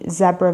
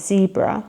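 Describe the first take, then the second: First: It is said with a British English pronunciation. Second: It is said with an American English pronunciation.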